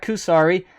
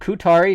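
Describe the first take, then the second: First: The second consonant is an s sound. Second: The second consonant is a t sound. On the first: The speaker calls it wrong. "not Kusari" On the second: The speaker calls it right. "It is pronounced Kutari"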